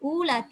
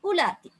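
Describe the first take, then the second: First: The first vowel is drawn out long. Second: The first vowel is kept short. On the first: The speaker calls it wrong. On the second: The speaker calls it right.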